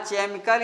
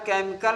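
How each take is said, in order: First: The word begins with a 'ch' sound. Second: The word begins with a 'k' sound. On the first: The speaker calls it wrong. "नहीं पढ़ा जाता" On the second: The speaker calls it right. "सी एच को का ही पढ़ते हैं"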